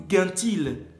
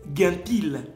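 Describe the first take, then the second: First: It starts with a hard 'g' sound. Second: The same.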